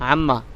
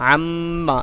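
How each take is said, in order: First: The doubled m passes quickly without a hold. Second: The doubled m is held with a brief stop. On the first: The speaker calls it wrong. "আম্মা এরকম বলে চলে আসা যাবে না" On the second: The speaker calls it right. "একটু থেমে একটু থেমে উচ্চারণ করতে হবে"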